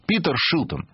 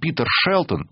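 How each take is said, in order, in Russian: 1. Первая гласная в фамилии звучит как 'ee' в 'see'. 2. Первая гласная в фамилии звучит как 'e' в 'bed'. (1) "Шилтон его зовут" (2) "написать на обложке «Святых имен» Питер Шелтон"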